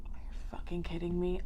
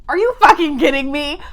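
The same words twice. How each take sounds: First: Voiceless whisper of disbelief; stunned whisper. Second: Loud, high yell of disbelief; outraged shout. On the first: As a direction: whisper it as if too shocked to speak. Stunned reaction to the statue. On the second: Outraged reaction to the statue. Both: Real, not acted.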